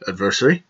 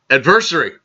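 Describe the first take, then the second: First: Put-on low, softer English-accented query; lightly imitated English accent, rising at the end; mock English accent. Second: Said in the usual way. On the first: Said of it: "English type accent". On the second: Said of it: "one of the people in the movie ... said".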